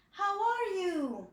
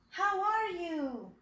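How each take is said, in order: Both takes have the same delivery.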